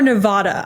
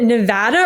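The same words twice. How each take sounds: First: "Nevada" with "ah" in the middle, Ne-VAH-da; broad-A pronunciation. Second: "Nevada" with the flat A of "ant"; short-A pronunciation. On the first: Host offers senator the other option, "Nevada" with broad "ah". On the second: Host asks senator which is right, "Nevada" with short A. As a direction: say "Nevada" with middle A as in "cat". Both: Shown as a demonstration. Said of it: "is it Nevada or Nevada".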